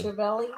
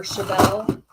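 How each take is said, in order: First: Chevelle with an added "ee" ending; alternative pronunciation. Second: Said in the usual way. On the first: Shown as a demonstration. Host trying out the car's name, Chevelle as "shuh-VELL-ee". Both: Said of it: "Is it Chevelle or Chevelle?".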